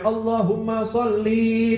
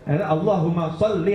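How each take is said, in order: First: The final vowel of sholli is drawn out long. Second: The final vowel of sholli is kept short. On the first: The speaker calls it wrong. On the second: The speaker calls it right.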